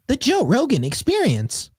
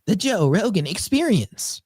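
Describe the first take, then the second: First: High, slow whimsical troll. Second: Slow, high robotic narrator; TikTok text-to-speech voice. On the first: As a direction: drawl it out like a playful troll. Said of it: "it's more whimsical. It's like a troll". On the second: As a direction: slowly announce like a TikTok voice. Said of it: "the female one where it's like". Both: Retold or imitated.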